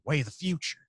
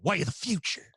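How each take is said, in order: First: It is said with lighter, milder emphasis. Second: It is said harder, with more emphasis. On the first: "for the Howard Hughes thing" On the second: "I go a little bit harder on it for Galen"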